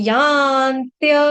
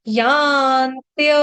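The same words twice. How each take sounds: Both takes have the same delivery.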